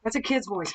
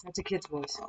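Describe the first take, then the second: First: Said in the usual way. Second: Much softer, almost under the breath; hushed repeat. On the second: Real, not acted. Ghost hunter repeats it to viewers, hushed and much softer. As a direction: drop the voice as if unsettled.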